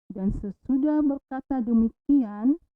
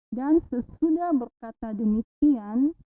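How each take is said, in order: The two takes are said the same way.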